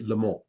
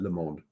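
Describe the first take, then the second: First: The final d sound is silent. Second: The final d sound is pronounced. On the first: "if there was no E, ... you wouldn't pronounce the final consonant" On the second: "this is how you pronounce that"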